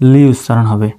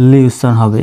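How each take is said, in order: Both takes have the same delivery.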